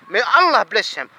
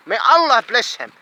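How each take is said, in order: Both takes have the same delivery.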